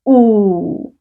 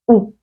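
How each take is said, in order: First: The vowel is pulled out long. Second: The vowel is short and clipped. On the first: The speaker calls it wrong. "Don't say ooh" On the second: The speaker calls it right. "making sure that you don't pull the sound of the vowel"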